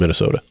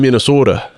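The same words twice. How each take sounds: First: It is said in a plain everyday accent. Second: It is said in a Minnesotan accent, long O's.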